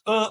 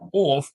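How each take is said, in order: First: The word is reduced to a short uh. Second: The word ends in a clear f sound. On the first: The speaker calls it right. "It's uh or of" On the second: The speaker calls it wrong. "Ain't no off"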